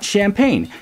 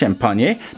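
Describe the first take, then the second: First: The word is said with the usual English pronunciation. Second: The word is said with a French-style pronunciation. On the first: The speaker calls it wrong. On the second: The speaker calls it right. "correctly pronounced"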